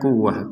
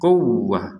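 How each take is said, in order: First: The w sound is short and unpressed. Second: The w sound is pressed and held long. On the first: The speaker calls it wrong. "jangan sekedar quwwah" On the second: The speaker calls it right. "kita membacanya dengan uh, tekanan"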